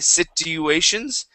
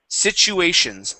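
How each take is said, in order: First: The word begins with a plain T sound. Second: The word begins with a CH sound. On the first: The speaker calls it wrong. "instead of saying sit" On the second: The speaker calls it right. "it is sitch"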